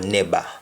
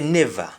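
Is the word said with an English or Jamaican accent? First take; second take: Jamaican; English. First: It is said in a Jamaican accent. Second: It is said in an English accent. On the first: "in Jamaican we say never" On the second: "English we say never"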